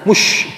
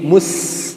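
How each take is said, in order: First: It is said with an sh sound. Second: It is said with a plain s sound. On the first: The speaker calls it wrong. "jangan mush ya, hati-hati" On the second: The speaker calls it right. "mus jangan mush"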